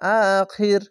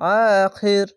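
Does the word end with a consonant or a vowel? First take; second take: consonant; consonant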